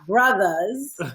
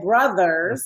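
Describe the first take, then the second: First: The word ends with a loose 'uh' sound. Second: The word ends with a full 'er' sound. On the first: Close friends in the community. "not brothers, B R U T H A S" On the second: Siblings by birth. "you said brothers"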